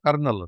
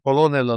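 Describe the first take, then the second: First: It is said as kernel, with two syllables. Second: It is said as ko-lo-nel, following the spelling. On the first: The speaker calls it right. "ಕರ್ನಲ್ ಅದು" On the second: The speaker calls it wrong. "ಕೊಲೋನೆಲ್ ಅಲ್ಲ"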